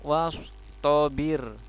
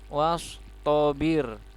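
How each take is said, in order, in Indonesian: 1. Vokal terakhirnya dibaca pendek. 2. Vokal terakhirnya dibaca pendek.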